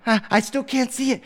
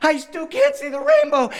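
First: Put-on high little-child complaint; small child starting to fret; plaintive, raised-pitch stammer; whiny toddler. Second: Put-on frustrated small child near tears; hammed-up tantrum wail; wailing toddler. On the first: Three-year-old cannot find rainbow. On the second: Daughter's frustration mounts to tears.

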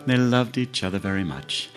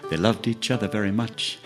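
The two takes are said the same way.

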